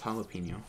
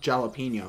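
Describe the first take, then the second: First: The word begins with an H sound. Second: The word begins with a J sound. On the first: The speaker calls it right. "it's jalapeno" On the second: The speaker calls it wrong. "it's not pronounced jalapeno"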